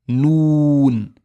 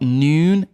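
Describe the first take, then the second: First: The vowel is a pure Arabic-style ooh sound. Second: The vowel is an English-style oo sound. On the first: The speaker calls it right. "So make it very ooh sound" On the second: The speaker calls it wrong. "It's not noon"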